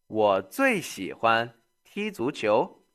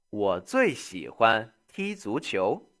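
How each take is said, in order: Both takes have the same delivery.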